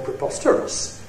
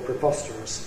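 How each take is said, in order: First: The pitch rises then falls on the stressed syllable. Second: The pitch falls from low on the stressed syllable. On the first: "Rise fall" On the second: "Low fall"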